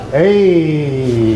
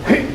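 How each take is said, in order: First: The shout trails off as air escapes. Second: The shout is cut off sharply at the end. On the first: The speaker calls it wrong. "It's not just letting the air out" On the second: The speaker calls it right. "there's a a glottal stop at the end. Actually, it's not a glottal stop. It's a diaphragm stop"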